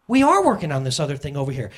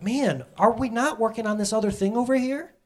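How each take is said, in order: First: "are" hit firmly, falling statement tune; stress on are. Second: Rising question, mildly voiced as God; God's gentle question. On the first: Shown as a demonstration. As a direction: turn the question into a firm answer, leaning on "are". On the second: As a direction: ask it as a gentle rhetorical nudge. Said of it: "and he's like".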